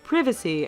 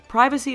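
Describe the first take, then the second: First: It is said with a British pronunciation. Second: It is said with an American pronunciation.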